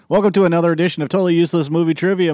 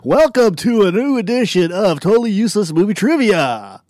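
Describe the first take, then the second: First: It is said in his normal speaking voice. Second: It is said in a put-on announcer voice.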